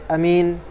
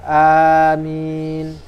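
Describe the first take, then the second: First: The first vowel is short. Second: The first vowel is long. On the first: "amin dengan pendek" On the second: "dengan panjang"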